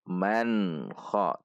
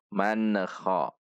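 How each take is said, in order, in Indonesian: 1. Huruf n menyambung halus ke kha. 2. Huruf n memiliki bunyi lepasan yang memantul. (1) "Namun man kha" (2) "yang sering terjadi adalah memantul man kha"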